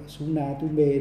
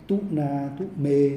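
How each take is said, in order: First: "Suna Tu Mê" read the Sri Lankan way, with an s at the start; "Suna Tu Mê", Sri Lankan Pali style. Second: "Tu Na Tu Mê" read the Burmese way, with t and no s at the start; "Tu Na Tu Mê", Burmese Pali style. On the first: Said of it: "của Sri Lanka". (đọc "Suna Tu Mê" theo giọng Sri Lanka) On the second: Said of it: "Miến Điện là". (đọc "Tu Na Tu Mê" theo giọng Miến Điện) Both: Shown as a demonstration.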